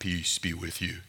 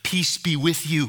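First: It is said in a menacing Darth Vader voice. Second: It is said in a gentle, calming voice.

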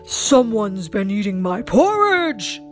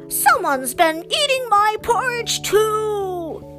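First: It is said in a growling Father Bear voice. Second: It is said in a grumbling Mother Bear voice.

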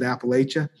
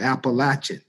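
First: It is pronounced the way New Yorkers say it. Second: It is pronounced the way Southerners say it. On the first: "For the people who are from New York, that's how they pronounce it" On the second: "But the people who are from the South, they call it"

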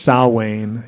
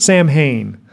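First: The word is pronounced the Gaelic way, not as spelled. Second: The word is pronounced letter by letter, as spelled. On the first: The speaker calls it right. "it's definitely pronounced Samhain, like Celtic or Gaelic" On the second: The speaker calls it wrong. "He just pronounces it phonetically"

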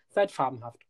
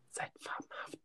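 First: It is said in a normal voice. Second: It is whispered.

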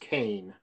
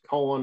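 First: The name sounds like 'Kane'. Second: The name sounds like 'Cohen'. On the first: This is how it is said locally. "Typically in my area, it's pronounced Kane" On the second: This is how it is said in other regions. "It's Cohen in other parts of the country"

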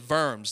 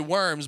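First: It is said with a German-style pronunciation. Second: It sounds like the English word worms. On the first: The speaker calls it right. "but it's really Worms" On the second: The speaker calls it wrong. "what we would say Worms"

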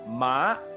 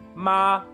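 First: The syllable is said with a changing pitch. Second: The syllable is said on a flat pitch. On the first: The word means horse. "Ma is horse" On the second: The word means mother. "flat tone, is mother"

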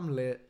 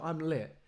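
First: It is said weakly and without any confidence. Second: It is said boldly and with full confidence. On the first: The speaker does not believe it. The speaker calls it wrong. "there's no point in saying that with like, oh" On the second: The speaker truly believes it. The speaker calls it right. "you say it with your whole chest"

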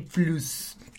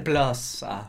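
First: Plus is said with a Mexican Spanish pronunciation. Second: Plus is said with an English pronunciation. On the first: "Eso sí le agregué el toque mexicano" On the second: "En lugar de Plus"

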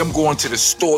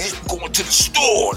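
First: It is said in a plain, ordinary way. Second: It is said hard and aggressively.

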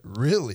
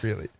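First: It sounds genuinely interested and engaged. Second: It sounds flat and sarcastic. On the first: The speaker sincerely wants to know. "You said that really like you were engaged" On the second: The speaker does not believe or care. "There's your sarcastic"

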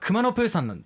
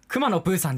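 First: The pitch on kuma stays flat. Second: The pitch on kuma falls. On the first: "本当は熊のプーさんなんですよね" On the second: "でも熊のプーさんじゃんっていうさ"

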